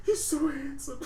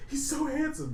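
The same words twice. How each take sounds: First: High, hammed-up weepy line; mock crying. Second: High, lightly hammed-up whimper; mock weepy line. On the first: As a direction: whimper it through fake tears. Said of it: "he's sitting there crying". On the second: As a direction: tease Devon with the weepy line. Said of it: "say that to Devon".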